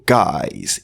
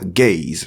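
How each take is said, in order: First: The vowel sounds like 'eye' in 'my'. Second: The vowel sounds like 'ay' in 'day'. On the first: The speaker calls it right. "mais plutôt guys" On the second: The speaker calls it wrong. "Ce mot ne se prononce pas gays"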